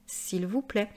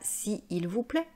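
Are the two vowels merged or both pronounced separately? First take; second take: merged; separately. First: The vowel is dropped, giving one syllable. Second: Both vowels are pronounced separately, with a hiatus. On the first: The speaker calls it right. "on dit" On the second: The speaker calls it wrong. "on ne dit pas si il vous plaît"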